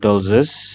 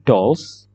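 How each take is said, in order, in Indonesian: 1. Akhirannya menambah satu suku kata. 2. Akhirannya adalah bunyi s yang ringan. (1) "bukan dollses" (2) "S-nya itu S yang ringan"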